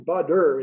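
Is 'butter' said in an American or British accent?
American. It has a d-like middle and final r. "there's an E R, but we have two D's"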